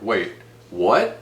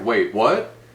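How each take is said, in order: First: There is a pause between the words. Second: The words run together without a pause.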